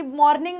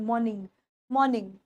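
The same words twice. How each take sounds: First: मॉर्निंग with a rolled r, mor-ning; wrong pronunciation. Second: मॉर्निंग with no r, maw-ning; correct pronunciation. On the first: Teacher shows students the wrong मॉर्निंग, r clearly sounded. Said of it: "मॉर्निंग नहीं बोलना". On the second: Teacher models the right मॉर्निंग for students, r silent. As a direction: say मॉर्निंग dropping the r, British style. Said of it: "मॉर्निंग बोलना है". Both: Shown as a demonstration.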